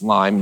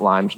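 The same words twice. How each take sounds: First: Lyme said as one clean word with no s, ending on the m; correct Lyme. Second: Lyme's said with a z sound added after the m; wrong Lyme's. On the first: Correcting himself to say Lyme without the s. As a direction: say Lyme plainly with no trailing s. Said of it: "she corrects me 'cause I say Lyme's". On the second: Owning the mistake he always makes, saying Lyme's with the s. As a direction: add a z sound on the end of Lyme's. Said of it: "I say Lyme's all the time". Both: Shown as a demonstration.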